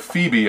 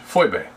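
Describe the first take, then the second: First: Said in the usual way. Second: Phoebe said as FOY-bay, falling tone; original pronunciation. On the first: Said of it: "as we say it in English". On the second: Shown as a demonstration. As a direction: pronounce Phoebe with oy, then bay. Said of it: "the way to actually pronounce that word".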